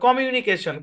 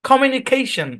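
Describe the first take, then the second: First: All syllables are said evenly with no stress. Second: One syllable is clearly stressed over the others. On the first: The speaker calls it wrong. "সব একদম এক টানে পড়ে" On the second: The speaker calls it right. "মানে stress আছে"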